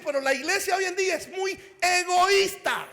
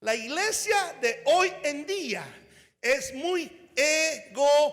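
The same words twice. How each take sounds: First: Rushed, forceful preacher's line; said too fast. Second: Very slow and deliberate, each word spaced out; slow it right down so it lands; said slowly. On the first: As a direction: fire it off quick and loud. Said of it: "tal vez lo dije muy rápido". (dicho demasiado rápido y fuerte) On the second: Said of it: "Lo voy a decir suavemente". (despacio, palabra por palabra) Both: Shown as a demonstration.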